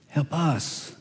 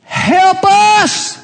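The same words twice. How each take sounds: First: Quiet, fading help us; 1 soft plea. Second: High, loud desperate cry. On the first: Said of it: "In other words". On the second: Mother crying out to Jesus, loud and high. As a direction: cry out to him with everything. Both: Retold or imitated.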